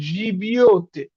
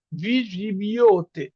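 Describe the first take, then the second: First: Said in the usual way. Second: ভি জিবিওতে drawn out very slowly, syllable by syllable; teacher modelling ভি জিবিওতে at half speed; slow demo pronunciation. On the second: Shown as a demonstration. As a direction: spell out ভি জিবিওতে slowly for the class. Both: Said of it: "এটার উচ্চারণ হচ্ছে".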